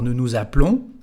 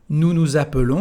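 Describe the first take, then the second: First: The vowel after the p is dropped. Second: The vowel after the p is pronounced.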